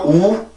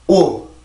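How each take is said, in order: First: The vowel is closed, with rounded, narrow lips. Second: The vowel is open, with the lips apart. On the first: The speaker calls it wrong. "우가 아니에요. 우, 우. 이게 아닙니다" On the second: The speaker calls it right. "입술이 반드시 열려야 돼요"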